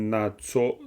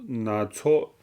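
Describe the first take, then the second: Both takes have the same delivery.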